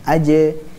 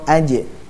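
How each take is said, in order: First: The j ends with a small bounce. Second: The j ends with a strong bounce. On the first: "Yang sughra" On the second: "Yang kubra"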